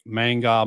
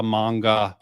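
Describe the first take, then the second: First: Manga with the flat "a" as in "man", MANG-gah. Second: Manga with the broad "a" as in "father", MAHNG-gah. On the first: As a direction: say manga as mæng-gah, first vowel like "cat". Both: Shown as a demonstration. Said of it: "I alternate".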